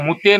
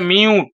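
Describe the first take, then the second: First: The word is said as two syllables, moo-tay. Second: The word is said as one syllable, myoot. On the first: The speaker calls it wrong. "ওটা মুতে নয়" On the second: The speaker calls it right. "এটা মিউট"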